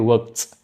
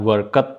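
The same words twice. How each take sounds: First: The ending is said as a short 't'. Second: The ending is said as a separate 'ed'. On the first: The speaker calls it right. "tapi worked" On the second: The speaker calls it wrong. "bukan worked"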